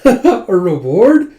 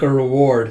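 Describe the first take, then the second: First: Slow, loud, rising echo; delighted question. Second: Said in the usual way. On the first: Retold or imitated. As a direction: repeat it in drawn-out happy wonder. [name] echoes it with delight.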